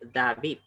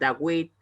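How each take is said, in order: First: The consonant is a V sound. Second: The consonant is a W sound. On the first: The speaker calls it right. "se pronuncia David. Así se pronuncia correctamente en hebreo" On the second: The speaker calls it wrong. "aquellos que pronuncian Dawit, eso es incorrecto"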